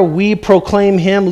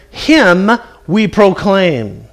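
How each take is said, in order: First: Said in the usual way. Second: Him said first, slow and weighted; slow, emphatic Him at the front; stress on Him. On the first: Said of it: "him is placed forward for emphasis". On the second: Shown as a demonstration. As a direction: lean on Him, then ease through we proclaim. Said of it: "It literally says this".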